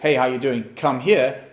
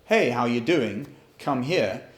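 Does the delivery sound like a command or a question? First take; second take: command; question. First: It is said firmly, like a stern command. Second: It is said lightly, like a friendly question. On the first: The listener is being ordered over. "that's a command" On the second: The listener is being invited over. "That sounds like a question"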